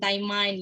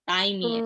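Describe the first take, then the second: First: The word is read out the way it looks. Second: The word is said in native English style. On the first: This was the first guess at reading it. The speaker calls it wrong. "Awalnya juga aku bacanya juga Taimain Taimain gitu" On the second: This is how native speakers actually say it. The speaker calls it right. "ternyata mereka ngomongnya yang ini"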